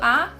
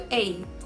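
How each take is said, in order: First: It is a short, weak 'uh' vowel. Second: It is a full 'ay' vowel, like the letter.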